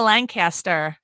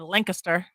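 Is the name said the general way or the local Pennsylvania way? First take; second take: general; local. First: The name is said the general, non-local way. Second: The name is said the local Pennsylvania way.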